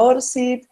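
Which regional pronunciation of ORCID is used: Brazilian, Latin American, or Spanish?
Latin American. It is said with a Latin American Spanish pronunciation. "en sitios de América Latina será ORCID"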